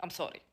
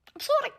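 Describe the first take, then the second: First: Low, soft mock apology; muttered sorry. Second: Very high, softer cutesy sorry; squeaky sorry. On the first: Vlogger apologising between segments: low soft sorry. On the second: Pretend. Vlogger apologising between segments: very high cute sorry. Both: Two contrasting sorry takes.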